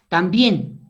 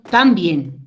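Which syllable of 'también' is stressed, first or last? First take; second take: last; first. First: The stress is on the last syllable. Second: The stress is on the first syllable. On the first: The speaker calls it right. "digo también" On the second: The speaker calls it wrong. "no digo también"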